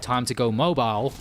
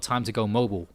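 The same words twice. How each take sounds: First: Mobile is said with a British pronunciation. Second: Mobile is said with an American pronunciation. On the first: The speaker calls it right. "Bane said time to go mobile" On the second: The speaker calls it wrong. "and not time to go mobile"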